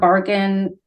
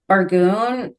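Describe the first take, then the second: First: The second syllable is said with a short 'in'. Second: The second syllable is said with a long 'oon'.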